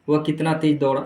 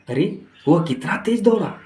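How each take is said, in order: First: It is said in a flat, plain tone. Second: It is said with excited, admiring exclamation.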